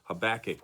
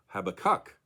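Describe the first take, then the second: First: The stress is on the second syllable. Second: The stress is on the third syllable. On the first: "with the accent on the second syllable" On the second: "with the emphasis, of course, on the third and final syllable"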